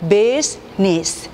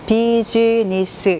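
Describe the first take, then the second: First: The word is said with fewer, compact syllables. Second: The word is split into four syllables. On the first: The speaker calls it right. "실제 보시면 business" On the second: The speaker calls it wrong. "이렇게 네 개로 발음하기가 쉽고"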